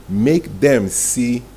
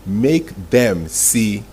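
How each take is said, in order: Both takes have the same delivery.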